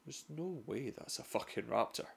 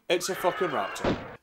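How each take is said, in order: First: Barely breathing it, sure it can't be real; hushed disbelief. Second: Punchy reveal. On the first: Pretend. Explorer whispering to himself at the rustle, hushed. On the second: Acted. Narrator confirming the raptor to viewers, punchy. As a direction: slam the reveal home. Reveal after hushed denial.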